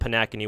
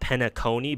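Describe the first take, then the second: First: The stress falls on the 'a' vowel. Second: The stress does not fall on the 'a' vowel. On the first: This is a personal, playful way of saying the name. "I pronounce it Panakini with the stress on the A" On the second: This is the intended way of saying the name. "it's supposed to be pronounced Penacony"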